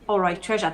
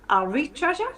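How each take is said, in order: First: It is said in a posh accent. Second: It is said in a Geordie accent.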